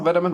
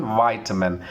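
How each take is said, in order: First: Vitamin with short i, VIT-a-min; teacher shows the common vitamin; wrong way. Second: Vitamin with long i, VYE-ta-min; teacher gives the right vitamin; correct way. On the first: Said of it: "It's not". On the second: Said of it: "It's not vitamin". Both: Shown as a demonstration.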